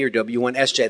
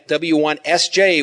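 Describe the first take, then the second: First: Said in the usual way. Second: Each letter spoken slowly and apart; slow, enunciated call sign. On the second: Shown as a demonstration. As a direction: slowly separate W, one, S, J. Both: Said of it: "So when I say W".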